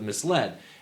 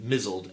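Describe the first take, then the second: First: It is said as two syllables, mis-led. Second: It is said as one syllable, mizzled. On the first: The speaker calls it right. "Instead of misled" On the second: The speaker calls it wrong. "the mispronunciation of the word M I S L E D as misled"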